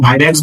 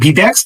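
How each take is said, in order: First: The first vowel sounds like 'eye'. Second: The first vowel sounds like 'ee'.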